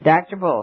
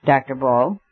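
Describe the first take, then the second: First: Crisp, polite address, falling at the end; each syllable neat and courteous; precise and courteous. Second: A firm, insistent call of the name, rising at the end; commanding call. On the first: Syme addresses the doctor precisely and courteously. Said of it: "in a voice peculiarly precise and courteous". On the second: Syme cuts into the professor's speech with a commanding call. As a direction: demand his attention, not to be ignored. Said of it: "in a voice that could not be neglected". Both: A narrator's reading.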